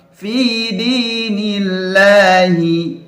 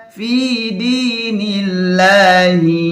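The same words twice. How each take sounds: No difference in how they are said.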